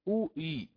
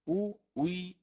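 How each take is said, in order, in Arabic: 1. الهمزة الثانية مسهّلة نحو صوت y. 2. تصبح الهمزة الثانية صوت w كامل. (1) "أو له كذلك التسهيل" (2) "واو خالصة مكسورة"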